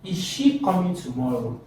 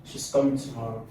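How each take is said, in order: First: "Is she coming tomorrow" higher, with "she" lifted; higher-pitched question peaking on "she"; question intonation. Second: "She's coming tomorrow" low, ending downward; a settled statement, no lift on "tomorrow"; statement intonation. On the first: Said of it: "look at the question". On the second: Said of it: "that's a statement". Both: Shown as a demonstration.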